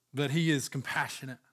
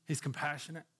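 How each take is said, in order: First: Said in the usual way. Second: Softly repeated. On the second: Acted. Preacher repeating it hushed to the congregation. Repeats compassionate, second time softer.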